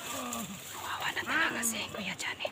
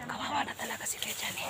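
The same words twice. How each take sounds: First: Slow hushed whisper. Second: Said in the usual way. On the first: Real, not acted. Sneaking past enemies in game.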